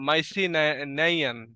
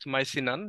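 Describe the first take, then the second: First: The word has four syllables, ending in -nai-yan. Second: The word has three syllables, ending in -nan. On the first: The speaker calls it wrong. "এই যে ই এ এগুলোর উচ্চারণ এভাবে হবে না" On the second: The speaker calls it right. "Just মাইসিনান এরকম ভাবে"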